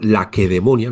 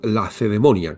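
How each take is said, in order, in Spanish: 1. La consonante tras 'La' es una k dura. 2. La consonante tras 'La' es un sonido suave. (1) "como ellos lo pronunciaban" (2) "las hemos transformado en en ce suaves"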